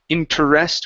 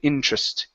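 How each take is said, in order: First: It has three syllables, with a middle vowel. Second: It has two syllables, the middle vowel dropped. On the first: The speaker calls it wrong. "We don't say interest" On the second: The speaker calls it right. "We say interest. ... take out the e, and the tr becomes tr"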